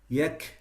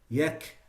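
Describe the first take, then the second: No difference in how they are said.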